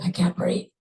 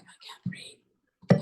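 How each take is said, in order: First: Squeezed, acted plea for air; strained breathlessness. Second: Slow, strained whisper; breathless. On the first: Crash victim repeating to rescuer she can't breathe, strained. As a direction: imitate struggling for air with some voice. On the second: Retold or imitated. Crash victim telling rescuer she can't breathe, breathless whisper. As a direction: imitate gasping words with almost no air. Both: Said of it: "saying you couldn't breathe".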